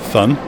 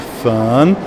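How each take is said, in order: First: The vowel is kept short and clipped. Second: The vowel is drawn out long. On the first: "I say fun" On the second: "You say fun"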